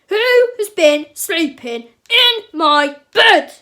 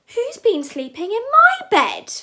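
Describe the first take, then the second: First: It is said in a big, grumpy voice. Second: It is said in a medium-sized voice. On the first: "cried Papa Bear in his big grumpy voice" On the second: "cried Mama Bear in her medium-sized voice"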